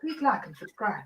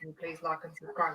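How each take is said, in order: First: It is said in an awkward put-on voice. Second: It is said in a normal voice.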